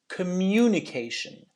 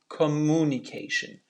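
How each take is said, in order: First: A y sound is added before the u. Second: There is no y sound before the u. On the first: The speaker calls it right. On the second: The speaker calls it wrong. "not communication"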